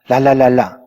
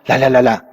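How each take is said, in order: First: It is said at a moderate pace. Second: It is said at a quicker pace.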